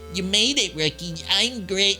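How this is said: It is said in a nerdy voice.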